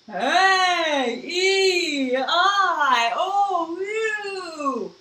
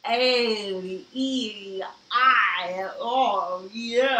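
First: It is said in a spooky ghost voice. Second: It sounds muffled, as if the mouth is full.

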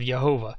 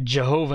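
First: The word begins with a Y sound. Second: The word begins with an English J sound. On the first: "the Germans still pronounced it with the Y sound" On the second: "That's how we get Jehovah"

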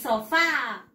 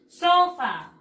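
First: The stress is on the last syllable. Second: The stress is on the first syllable. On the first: This is the Spanish word. "La mayor fuerza de voz es en la A" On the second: This is the English word. "la mayor fuerza de voz le vamos a dar aquí en la O"

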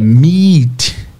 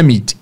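First: The vowel is a long, stretched ee sound. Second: The vowel is a short i sound. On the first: The speaker calls it right. "Estiquem o I" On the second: The speaker calls it wrong. "não é meet"

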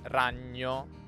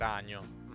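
First: The gn sound is held long. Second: The gn sound is short. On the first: This is the standard pronunciation. "potremmo dire sono sempre lunghi" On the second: This is a northern regional pronunciation. "Al nord no, al nord è comune sentire anche ragno"

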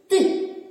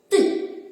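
No difference in how they are said.

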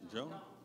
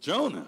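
First: It is said with little energy. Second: It is said with more energy.

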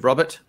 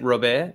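First: The name is said with an English accent. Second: The name is said with a French accent.

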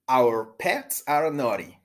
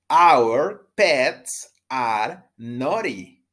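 First: The sentence is said at a fast pace. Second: The sentence is said at a normal pace.

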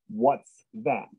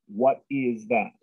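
First: The words 'what is' are joined into one syllable. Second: The words 'what is' are said as two separate words. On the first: "short for what is or what was" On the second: "Instead of having two words"

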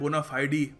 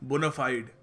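First: It is said in a British accent, ending 'fidee'. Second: It is said in an American accent, ending 'fide'. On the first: "British accent में बोलते हैं" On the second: "American accent में बोलते हैं"

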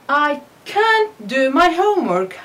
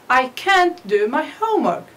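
No difference in how they are said.

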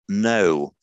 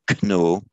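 First: The word starts with an n sound. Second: The word starts with a k sound. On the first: This is the modern pronunciation. "our English word know" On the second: This is the old pronunciation. "which used to be pronounced kno"

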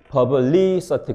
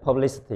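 First: The 'li' syllable is drawn out with a long vowel. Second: The 'li' syllable is quick with a short vowel. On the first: The speaker calls it wrong. "리가 빨리 발음되지 퍼블리서티 그렇지는 않잖아요" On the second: The speaker calls it right. "이렇게 하니까 빠르니까 숏바울이구나"

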